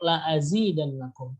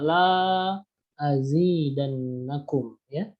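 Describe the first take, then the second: First: The first vowel is held short. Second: The first vowel is drawn out long. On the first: The blessing will surely be increased. The speaker calls it right. "Harusnya pendek" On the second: The blessing will not be increased. The speaker calls it wrong. "tapi dibaca"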